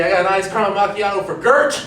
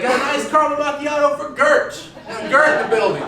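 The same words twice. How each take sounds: First: Lightly voiced barista calling an order. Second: High-pitched order call across the shop; barista calling out. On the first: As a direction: call out the drink order, a bit quicker. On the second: Retold or imitated. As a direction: call out for the missing customer, pitched up. Barista searching, calls order out again.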